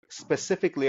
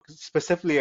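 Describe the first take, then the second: First: Re-say "specifically" carefully and in full; careful correction. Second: "specifically" with the middle syllable swallowed; slurred slip. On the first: Corrects the stumbled word. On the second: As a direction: stumble over "specifically", dropping its "-ic-". Stumbles, then says it again. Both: Real, not acted.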